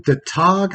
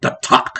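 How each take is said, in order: First: Said in the usual way. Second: 'The Tog' in a light Klingon accent, throaty 'Tog'. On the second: Shown as a demonstration. Telling fans to say 'The Tog' in Klingon accent. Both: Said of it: "I think you gotta put a Klingon accent on it".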